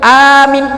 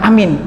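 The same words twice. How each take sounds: First: The first vowel is long, the second short. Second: The first vowel is cut short. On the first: It means trustworthy. "Kalau dia baca A-nya panjang, min-nya pendek" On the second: It means safe and secure. "Jangan di dipendekkan A-nya"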